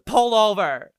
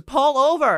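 First: Loud, high imitated order; mock-urgent shout to the driver; shouted demand. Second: Much higher, louder repeated demand; shrieked mock order; insistent shout. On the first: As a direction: yell it like an upset passenger. Drunk rider demands a stop. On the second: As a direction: imitate a passenger yelling more urgently.

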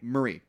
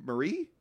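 First: Marie. said with a firm falling tune; confident falling name. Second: Marie? asked with a rising question tune; unsure rising name. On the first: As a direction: state the name with certainty. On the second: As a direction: say the name like you doubt it. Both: Real, not acted.

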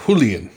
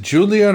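First: "Julian" with the J as H, HOO-lee-un; Spanish J. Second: "Julian" with an English J, as JOO-lee-un. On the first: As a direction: start "Julian" on a huffed H sound. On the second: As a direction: start "Julian" on a hard J sound. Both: Shown as a demonstration. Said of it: "I guess the J's do make a huh".

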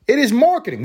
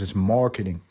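First: It is marketing, with "marketing" much higher and louder, falling at the end; emphatic restatement. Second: Said in the usual way. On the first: Shown as a demonstration. Host hammers his point home to listeners, loud emphatic restatement. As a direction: slam home "It is marketing" with a big lift on "marketing".

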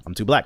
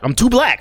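First: Said in the usual way. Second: Mock high exclaim. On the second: Shown as a demonstration. Joking he can't do an English accent, high loud cry. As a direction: throw it up high and loud for the laugh.

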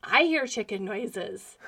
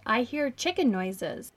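First: Slow, deadpan echo of the line; mom echoing. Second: Slow, puzzled dad voice; quoting dad. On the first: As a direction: repeat it slowly like a stunned mom. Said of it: "And she's like". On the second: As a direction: say it slowly like a baffled dad. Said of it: "So he calls my mom over and says". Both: Retold or imitated.

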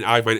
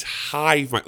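First: "Hive Mind" with the H silent; dropped H. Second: "Hive Mind" with a clear initial H; sounded H. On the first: Retold or imitated. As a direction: say "Hive Mind" starting on the vowel, like "Ive". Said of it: "you're saying Hive Mind". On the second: Shown as a demonstration. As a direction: correct it to "Hive Mind", H fully pronounced. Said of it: "it's Hive Mind".

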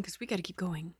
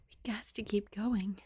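First: Said in the usual way. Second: Repeated as a soft whisper; playful whispered reminder. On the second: Shown as a demonstration. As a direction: whisper it to yourself.

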